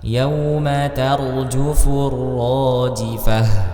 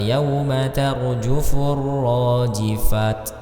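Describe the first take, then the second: First: The last word ends with an H sound. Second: The last word ends with a T sound. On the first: The speaker calls it right. "kalau dia berhenti atau waqaf maka dia dibaca seperti huruf H" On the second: The speaker calls it wrong. "Tidak dibaca"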